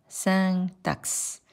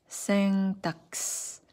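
The two takes are said the same way.

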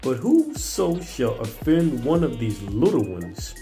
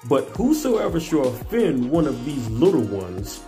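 First: It is read with plain, ordinary energy. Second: It is read with more force and energy.

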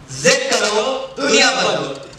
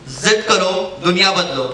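First: It is said with high energy. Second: It is said with low energy.

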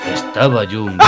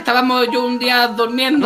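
First: It is said in a scary horror voice. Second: It is said in a normal voice.

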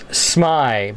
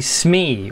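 First: The vowel sounds like 'eye'. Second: The vowel sounds like 'ee'. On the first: The speaker calls it right. "my name, you know, it's SMY" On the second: The speaker calls it wrong. "almost 90% of the people say SME, which drives me insane"

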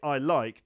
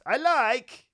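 First: It is said in the speaker's normal accent. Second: It is said in an imitated Borat-style accent.

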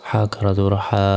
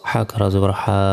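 Both takes have the same delivery.

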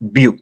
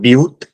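First: The word ends on the vowel, no t. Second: The word ends with an audible t sound. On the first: The speaker calls it right. "It's ब्यू" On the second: The speaker calls it wrong. "It's not ब्यूट"

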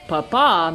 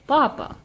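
First: The stress is on the last syllable. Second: The stress is on the first syllable.

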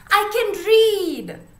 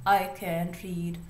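First: It is said excitedly, like an exclamation. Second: It is said plainly, without excitement.

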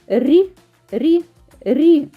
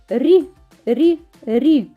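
No difference in how they are said.

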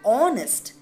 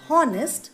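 First: The word begins with a vowel sound. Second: The word begins with an h sound. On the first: The speaker calls it right. "So we can hear the O sound" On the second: The speaker calls it wrong. "We don't pronounce the word honest as honest"

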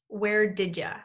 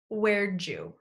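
First: It is said as 'where did ya', with 'you' reduced to 'ya'. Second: It is said as 'where'dja', with 'did' reduced to 'd' and linked into 'you'. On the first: "reduce did you to sound like did ya" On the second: "the fourth variation is where'd you?"

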